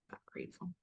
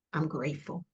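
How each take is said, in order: First: A barely voiced whisper of I'm grateful. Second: Said in the usual way. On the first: Real, not acted. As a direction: let the words fade to breath. Repeating thanks, fading away.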